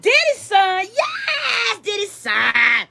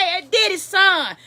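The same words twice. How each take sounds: First: Mock shouting, pitch jumping high; excited crowd shout. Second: Said in the usual way. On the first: Club crowd spots [name]'s son, shouting excitedly. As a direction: hype it up like a thrilled clubgoer. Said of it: "They gonna be like".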